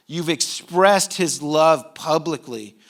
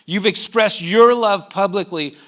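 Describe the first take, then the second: First: Slow, drawn-out "expressed" before "his love"; stress on expressed. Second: "your" punched louder in a slow line; stress on your. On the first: Preacher affirming the congregation as worshipers, stress on "expressed". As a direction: linger on "expressed", keeping "his" unstressed. First take, then reworded. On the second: Preacher telling the congregation the love is theirs, stress on "your". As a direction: hit "your" hard, as the corrected word. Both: Real, not acted.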